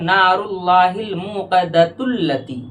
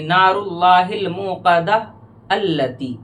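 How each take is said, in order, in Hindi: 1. Muqadah बिना रुके सीधे allati से जुड़ जाता है। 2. पढ़ने वाला muqadah के बाद रुकता है, फिर allati कहता है। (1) "अगर नहीं रुकेंगे तो यूं पढ़ा जाएगा" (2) "अगर आप यहाँ पर अलमुक़दा में रुकेंगे तो अल्लती पढ़ेंगे"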